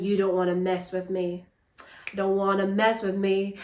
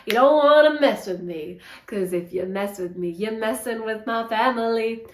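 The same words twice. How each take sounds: First: A hint of a menacing thug, quieter; lightly voiced hard man, low-key threat; mock tough guy. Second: Leaning into the threat a bit harder; lightly hammed-up hard man pressing the point; mock tough guy. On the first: Reviewer mocking the Viking's tough talk, lightly voiced. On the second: Reviewer mocking the Viking's threat, slightly pushed. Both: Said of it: "the Vikings acting all really tough".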